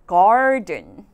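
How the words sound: The r is sounded and the t is soft. "제가 미국식으로 이렇게 단어를 읽게 된다면 이런 식으로 읽겠죠"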